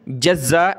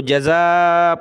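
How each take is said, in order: First: जज़्ज़ा with a clipped double z, "jaz-za"; doubled consonant. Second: जज़ा with one z and a long final aa; single z, stretched. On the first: Teacher warning against the misreading, doubled z in जज़्ज़ा. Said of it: "नहीं पढ़ना". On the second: Teacher repeating the correct reading, stretched single-z जज़ा. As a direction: hold the end of जज़ा as "ja-zaaa". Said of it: "इसको जज़ा पढ़ना है". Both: Shown as a demonstration.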